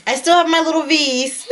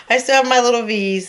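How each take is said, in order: First: Said in the usual way. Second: Repeated with a laugh; delighted laughing repeat. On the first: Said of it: "repeats phrase". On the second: Real, not acted. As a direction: say "I still have my little V's" laughing proudly. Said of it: "repeats phrase laughing".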